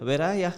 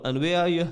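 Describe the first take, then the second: First: Jokey northern "ya" for you; playful touch of northern accent; northern English lingo. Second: Said in the usual way. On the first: Shown as a demonstration. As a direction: end on a loose northern "ya". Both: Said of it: "got this northern lingo".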